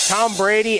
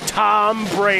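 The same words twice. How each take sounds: First: The name is said in a plain conversational voice. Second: The name is said in a booming announcer voice. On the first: The speaker calls it wrong. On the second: The speaker calls it right.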